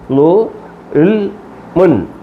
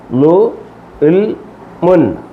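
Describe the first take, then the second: No difference in how they are said.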